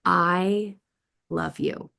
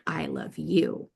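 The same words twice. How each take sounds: First: "I", held apart by a pause, then "love you"; pause after I. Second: "I love you" in one slow run, landing on "you"; no pause after "I", draw out "you"; stress on YOU. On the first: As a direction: break after "I" before finishing "love you". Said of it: "there's ways that we can pause". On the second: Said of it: "is very different than". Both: Shown as a demonstration.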